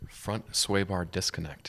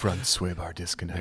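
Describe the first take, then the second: First: It is said in a plain, ordinary voice. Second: It is said in a sultry, sexy voice.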